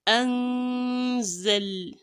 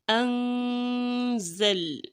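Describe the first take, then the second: No difference in how they are said.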